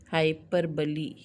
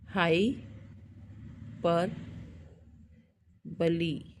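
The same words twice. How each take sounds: First: Said in the usual way. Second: हाई, पर, बली in separate pieces with long pauses; syllable by syllable. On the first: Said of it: "hyperbole पूरा". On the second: Shown as a demonstration. Teacher transcribes for students, हाई पर बली broken up by long gaps. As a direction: dictate हाई पर बली part by part, slowly. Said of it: "हम लिखते हैं".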